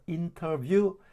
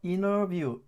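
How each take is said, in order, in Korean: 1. n 뒤의 t는 분명하게 발음돼요. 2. n 뒤의 t는 묵음이에요. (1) "물론 이렇게 읽을 수도 있겠지만은" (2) "이 t가 발음이 안 돼서 interview 이런 식으로 들릴 겁니다"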